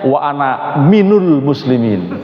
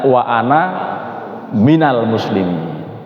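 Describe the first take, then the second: First: The word after 'ana' is said 'minul'. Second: The word after 'ana' is said 'minal'. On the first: The speaker calls it wrong. "Yang salah memadukan antara awwalul muslimin dan minal muslimin" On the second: The speaker calls it right. "kita membacanya wa ana minal muslimin"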